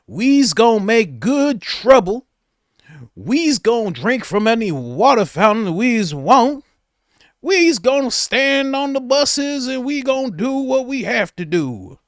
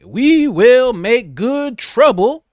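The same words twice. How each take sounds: First: Slow, louder, higher put-on dialect; hammed-up mock protest speech; exaggerated mock activist. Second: Slow, louder, higher orator voice; lady imitating Malcolm X, slow and loud; mock Malcolm X. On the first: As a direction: ham up the sixties marcher. Mocking her activist speech. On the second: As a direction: preach it like a sixties activist. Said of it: "talk like Malcolm X".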